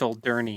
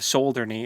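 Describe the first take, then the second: First: The stress is on the second syllable. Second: The stress is not on the second syllable. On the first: The speaker calls it right. "Emphasis on second, I think. Um, second syllable" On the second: The speaker calls it wrong. "instead of Solderney"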